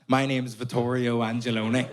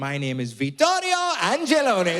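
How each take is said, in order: First: It is said in a Belfast accent. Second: It is said in an exaggerated Italian accent.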